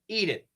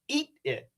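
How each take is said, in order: First: The T is a quick flap like D. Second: The T is cut off with a stop. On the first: "usually it's going to be a flap T" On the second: "I could make this a stop T and say"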